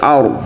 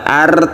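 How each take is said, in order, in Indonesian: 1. Bunyi r-nya tebal dan berat. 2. Bunyi r-nya tipis dan ringan. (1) "tapi ar, jadi ditebalkan ro-nya" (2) "bukan ar"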